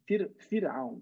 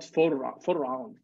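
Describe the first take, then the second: First: The r is light and thin. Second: The r is heavy and emphatic. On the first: The speaker calls it right. "So the ra of Fir'aun is made not emphatic, but small" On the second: The speaker calls it wrong. "not Fir'aun"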